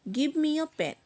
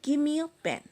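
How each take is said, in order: No difference in how they are said.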